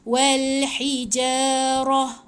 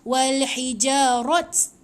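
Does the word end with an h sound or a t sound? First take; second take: h sound; t sound. First: The word ends with an h sound. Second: The word ends with a t sound. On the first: The speaker calls it right. "Bila mati kena ha" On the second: The speaker calls it wrong. "Dia dah tak bunyi macam walhijarat. Tak boleh bunyi macam tu"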